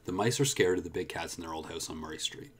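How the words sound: The word 'their' is unstressed. "I'll do it again unstressed"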